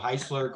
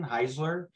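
First: The middle consonant is a hissing S sound. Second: The middle consonant is a buzzing Z sound. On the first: The speaker calls it right. "it rhymes with Chrysler" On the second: The speaker calls it wrong. "a lot of people go with the Z sound for some reason"

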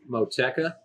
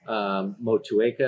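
First: The name is said in a shortened, casual form. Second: The name is said in its full careful form. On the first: The speaker calls it wrong. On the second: The speaker calls it right.

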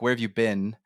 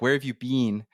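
First: It is said the American way. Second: It is said the Canadian way. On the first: "But in America, it's like" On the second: "even just in Canada, people might say like"

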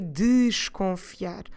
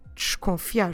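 First: The first syllable is open and clearly pronounced. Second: The first syllable is reduced and passed over quickly. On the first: The speaker calls it wrong. "we don't need to pronounce it in a very open and clear way" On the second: The speaker calls it right. "We can just go slightly through that syllable"

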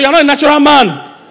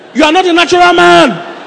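First: It is said calmly, without force. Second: It is said forcefully, with anger and enthusiasm.

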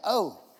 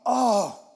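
First: The oh sounds casual and offhand. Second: The oh sounds deeply yearning and longing. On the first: A passing, indifferent remark. The speaker calls it wrong. "it's not like, oh. Oh, it's not like that" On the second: A deep wish for people to give thanks. The speaker calls it right. "It's a longing"

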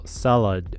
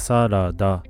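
First: It ends with a light, soft 'd' sound. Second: It ends with a full, clear 'da' syllable. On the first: "英語だとサラダみたいな感じで、最後のダの部分がドみたいな感じに聞こえる" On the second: "日本語ではサラダと言いますが"

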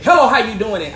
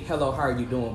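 First: The greeting is said with strong, forceful energy. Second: The greeting is said in a plain, calm way.

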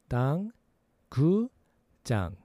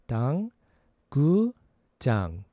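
No difference in how they are said.

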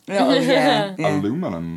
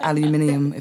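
First: It is said with four syllables, American style. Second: It is said with five syllables, British style. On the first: "they always say it in a very American way" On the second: "instead of aluminium"

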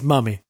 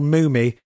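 First: The first vowel is a short 'u' sound. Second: The first vowel is a long 'oo' sound. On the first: This is the way the name looks from its spelling. "then he's Mummy" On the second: This is the way the person wants his name said. "he can spell his name M-O-O-M-I-E"

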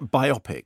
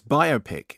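First: It is said to rhyme with myopic. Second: It is said as bio plus pic. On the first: The speaker calls it wrong. "It's not biopic. It doesn't rhyme with myopic" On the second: The speaker calls it right. "It's biopic"

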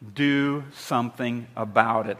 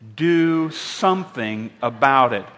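First: It is said in a plain, flat way. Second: It is said forcefully, with conviction.

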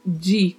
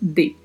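First: The consonant is a soft 'dj' sound. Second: The consonant is a plain hard d. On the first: The speaker calls it wrong. "Não tem o som de, como a gente conhece no português" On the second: The speaker calls it right. "Então, fala-se de"

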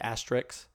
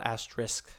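First: The word ends with an x sound. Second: The word ends with a sk sound. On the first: "like with an X at the end" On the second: "it's spelled asterisk, I-S-K"

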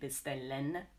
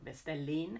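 First: The word ends in a full 'en' sound. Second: The word ends in an 'in' sound. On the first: "we don't really say bestellen" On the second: "or bestellin"

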